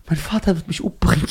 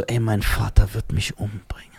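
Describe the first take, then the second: First: Said in the usual way. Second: Whispered and lower, in mock dread. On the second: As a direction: hush it like a scared kid. Retells fear of father, whispering.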